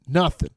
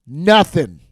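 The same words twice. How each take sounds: First: Said in the usual way. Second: Emphatic nothing. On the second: Acted. Repeat of nothing, punched up.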